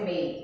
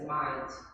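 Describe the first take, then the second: First: The vowel sounds like 'ay'. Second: The vowel sounds like 'eye'. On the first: This is how most other varieties say it. "Não vai ser mate" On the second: This is the Australian way of saying it. "vai ser might"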